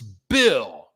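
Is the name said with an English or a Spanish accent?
English. The name is said with an English accent. The speaker calls it right. "It's Bill"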